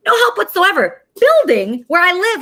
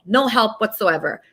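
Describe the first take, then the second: First: Higher, louder angry blast; angry outburst. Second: Said in the usual way. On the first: Real, not acted. Host ranting to viewers about the police, angry and louder. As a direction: let the anger spill over on this one. Ranting list of who failed her.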